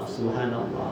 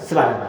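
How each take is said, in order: First: It is said slowly and deliberately. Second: It is said quickly, in the usual rushed way.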